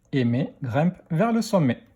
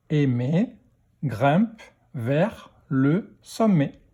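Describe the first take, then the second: First: Said in the usual way. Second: Slow, gaps after "Aimer", "grimpe", "vers", "le"; word-by-word reading. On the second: Shown as a demonstration. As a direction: read "grimpe vers le sommet" one word at a time. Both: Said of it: "lecture de phrase".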